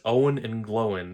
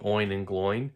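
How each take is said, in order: First: The names are said as Owen and Glowin. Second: The names are said as Oin and Gloin. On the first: Someone else chose this unfamiliar pronunciation. "chose to pronounce it as Owen and Glowin" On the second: This is the familiar, usual pronunciation. "I've always pronounced it that way"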